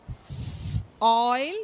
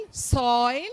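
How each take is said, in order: First: Long hissed S, pause, then "oil"; sounded out. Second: Said in the usual way. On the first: Shown as a demonstration. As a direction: split it into "S" and "oil" for learners. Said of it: "say the oi and then the whole word". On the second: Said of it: "then the whole word".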